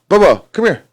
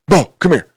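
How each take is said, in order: First: It is said in a sweet, playful voice. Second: It is said in a tense, tight voice.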